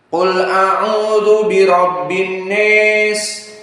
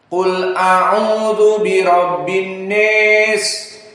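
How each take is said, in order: First: The vowel in 'nas' leans strongly toward 'e'. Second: The vowel in 'nas' leans strongly toward 'e'.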